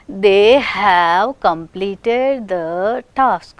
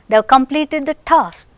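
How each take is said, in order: First: The word have is said in full, stressed. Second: The word have is reduced, unstressed.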